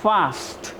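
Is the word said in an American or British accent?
British. It is said in a British accent. "ब्रिटिशर्स बोलते हैं"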